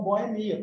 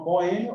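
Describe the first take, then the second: First: "boemia" stressed on the I, bo-e-MI-a. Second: "boêmia" stressed on the second syllable, bo-Ê-mia. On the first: Teacher showing students a double pronunciation, "boemia" stressed on MI. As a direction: say "boemia" with MI as the strong syllable. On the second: Teacher showing students a double pronunciation, "boêmia" stressed on Ê. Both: Shown as a demonstration. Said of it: "tem dupla pronúncia prosódica".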